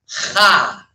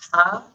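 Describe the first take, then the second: First: The h is a harsh throaty sound. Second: The h is a soft plain breath. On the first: "It's like saying ha" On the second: "instead of just ha"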